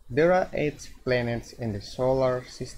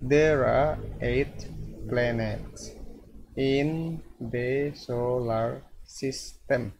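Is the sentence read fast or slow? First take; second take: fast; slow. First: The sentence is read quickly. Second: The sentence is read slowly.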